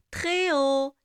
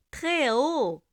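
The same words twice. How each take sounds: The two takes are said the same way.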